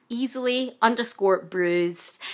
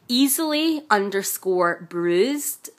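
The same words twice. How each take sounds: First: Slow repeat. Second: Slow spelling out. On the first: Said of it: "So that's at". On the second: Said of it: "It's at". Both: Shown as a demonstration.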